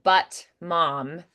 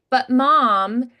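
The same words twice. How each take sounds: First: The T in 'but' is a clear T. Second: The T in 'but' is a glottal stop. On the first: "instead of" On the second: "they don't even really do a T"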